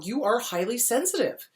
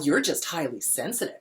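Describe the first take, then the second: First: It is said warmly and approvingly. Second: It is said snarkily and dismissively.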